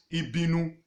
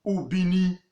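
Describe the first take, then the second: First: Ibinu with initial I and final -nu; Ubini turned into Ibinu; Yoruba pronunciation. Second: Ubini with initial U and final -ni; Ubini set apart, U-bi-ni; original pronunciation. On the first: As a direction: say Ibinu, ending in -nu. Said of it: "to suit their tongue and call it". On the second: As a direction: say Ubini distinctly, ending in -ni. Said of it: "how the Yoruba pronounced". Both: Shown as a demonstration.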